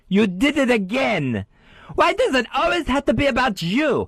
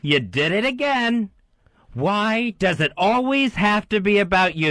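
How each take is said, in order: First: It is said high, squeaky, with French accent. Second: It is said in his normal inner voice.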